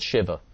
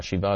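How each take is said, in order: First: Shiva said SHIH-vuh, short i, stress on first syllable; anglicized Shiva. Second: Shiva said shee-VAH, long ee, open final ah; Hebrew Shiva. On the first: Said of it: "He doesn't say Shiva". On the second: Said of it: "Shiva is the real Hebrew". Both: Shown as a demonstration.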